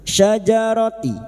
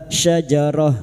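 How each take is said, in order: First: The word ends with a voiced ti sound. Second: The word ends with a soft h sound. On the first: The reciter continues into the next word. "kita wasal atau terus, maka tak marbuto kita bunyikan" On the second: The reciter stops after this word. "jika dibaca wakaf bunyinya ha"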